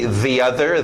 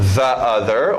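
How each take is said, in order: First: 'The' is said with an 'ee' vowel. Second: 'The' is said with a short 'uh' vowel.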